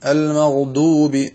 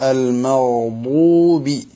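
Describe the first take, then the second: First: The consonant is a heavy plain d. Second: The consonant comes from the tongue's side. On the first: The speaker calls it wrong. "തനി ദാലിനെ വണ്ണിച്ചുകൊണ്ട്" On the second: The speaker calls it right. "ഈ വലത് അല്ലെങ്കിൽ ഇടത് ഭാഗങ്ങളിൽ നിന്നാണ് കേൾക്കേണ്ടത്"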